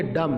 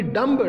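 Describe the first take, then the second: First: "डम" ending on m; correct reading. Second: "डम्ब" with final b sounded; wrong reading. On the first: Teacher giving students the right "डम", no b. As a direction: say "डम" with the B silent. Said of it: "इसको पढ़ेंगे डम". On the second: Teacher showing the wrong "डम्ब", B pronounced. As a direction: say "डम्ब" with a released b. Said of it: "नहीं". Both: Shown as a demonstration.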